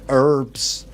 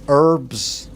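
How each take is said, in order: First: It is said in an American accent. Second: It is said in an American accent.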